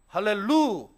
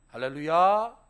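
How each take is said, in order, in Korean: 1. 루 음절에 강세가 있어요. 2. 루 음절에는 강세가 없어요. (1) "이것이 맞는 말이에요" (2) "이거 다 틀린 말입니다"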